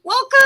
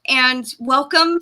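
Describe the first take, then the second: First: Squealed much higher and louder; excited squeal. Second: Said in the usual way. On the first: Real, not acted. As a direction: squeak it with joy. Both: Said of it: "I am so excited".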